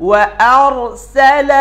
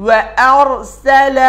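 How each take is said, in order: No difference in how they are said.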